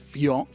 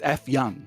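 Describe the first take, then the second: First: The name is said smoothly as one word. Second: The name is read like a letter plus word. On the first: "the one I always bring up with my wife" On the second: "if you read it in English"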